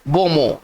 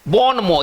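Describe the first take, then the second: First: It is pronounced the way French speakers say it. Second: It is read the way an ordinary Indian would. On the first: The speaker calls it right. "लेकिन इसका सही उच्चारण क्या है" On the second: The speaker calls it wrong. "ये तो हम लोग जैसे जैसे कि एक आम इंडियन की तरह पढ़ रहे हैं"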